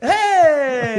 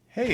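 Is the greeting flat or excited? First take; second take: excited; flat. First: The greeting is said with lively, excited energy. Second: The greeting is said flatly, with low energy.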